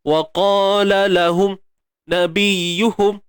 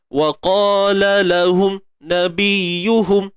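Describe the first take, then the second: No difference in how they are said.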